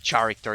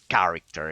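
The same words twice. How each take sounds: First: The word is pronounced with a foreign-sounding accent. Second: The word is pronounced with a native-sounding accent. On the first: The speaker calls it wrong. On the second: The speaker calls it right.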